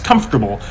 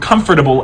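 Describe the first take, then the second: First: Two sounds in the middle swap places. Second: The middle sounds come in their usual order. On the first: "that's metathesis" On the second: "or comfortable"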